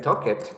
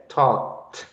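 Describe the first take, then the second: First: "talk it" with a separate "it" syllable; wrong ending. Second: "talked" as one syllable ending in t; correct past. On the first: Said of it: "you are not going to say like". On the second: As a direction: end "talked" with a clean t. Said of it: "So you are going to say". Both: Shown as a demonstration.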